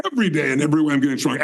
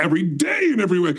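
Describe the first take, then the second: First: "Every" hit hard at the start, the rest rattled off fast; quick mantra leaning on "Every"; stress on EVERY. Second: Brisk mantra with a big accent on "day"; stress on DAY. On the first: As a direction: punch the first "Every" in a quick incantation. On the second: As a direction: lean hard on "day" in a quick incantation. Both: Shown as a demonstration. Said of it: "I emphasize a different word".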